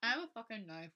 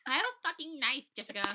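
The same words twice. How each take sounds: First: Lightly voiced girl, raised pitch; a hint of a girl making a mock threat; mock threatening girl. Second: High, loud mock-threatening yell; hammed-up threat shout. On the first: Friend improvises a girl threatening Jessica, lightly hammed-up threat. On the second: Friend repeats girl's threat to Jessica, high hammed-up shout. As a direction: yell it like an over-the-top threat.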